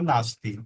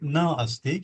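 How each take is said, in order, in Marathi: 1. दोन्ही शब्द एकत्र होऊन एक शब्द बनतो. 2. दोन वेगळे शब्द, na आणि asti.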